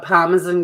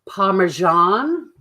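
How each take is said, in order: First: The word is said in a non-American accent. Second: The word is said in an American accent. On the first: "I'm just a Parmesan girl through and through" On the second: "or as the Americans would say"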